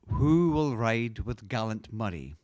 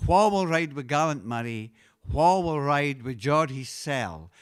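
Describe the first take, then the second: First: Said in the usual way. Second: Scots dialect chorus line. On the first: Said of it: "translated into English". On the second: Shown as a demonstration. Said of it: "the first line is".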